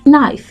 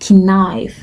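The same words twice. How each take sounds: First: The starting K is silent. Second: The starting K is pronounced. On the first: The speaker calls it right. "the K is completely silent, so you'd have knife" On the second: The speaker calls it wrong. "not knife"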